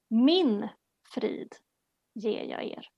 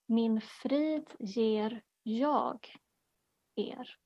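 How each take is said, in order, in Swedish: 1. Betoningen ligger på ordet 'Min'. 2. Betoningen ligger på ordet 'jag'.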